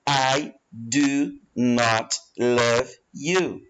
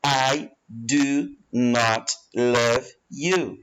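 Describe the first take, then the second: First: The negative is said in full as two words. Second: The negative is said in full as two words.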